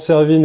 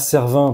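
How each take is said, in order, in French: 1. Le nom se termine par un son 'een' bien net. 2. Le nom se termine par une voyelle nasale. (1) "je prononce Servine" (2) "et pas Servin"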